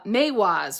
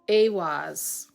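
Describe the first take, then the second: First: The word begins with an M sound. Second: The word begins with a vowel sound. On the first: The speaker calls it wrong. "am I adding the M to it that doesn't belong? I think I am" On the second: The speaker calls it right. "it's actually an E"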